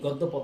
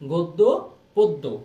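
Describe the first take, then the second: First: The middle consonant is said single, without extra weight. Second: The middle consonant is doubled, with extra weight. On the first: The speaker calls it wrong. "গদ্য পদ্য না" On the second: The speaker calls it right. "জফলার কারণে বেশি পড়া রাখবা"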